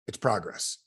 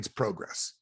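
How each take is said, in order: First: It is said in an American accent. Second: It is said in a Canadian accent.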